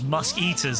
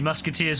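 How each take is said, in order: First: The word is split into 'musk' and 'eaters'. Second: The word is said as one normal word. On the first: The speaker calls it wrong. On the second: The speaker calls it right.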